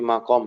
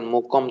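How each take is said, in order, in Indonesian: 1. Vokal pertama terdengar seperti 'a'. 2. Vokal pertama terdengar seperti 'u'. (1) "tapi makom" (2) "Bukan mukom"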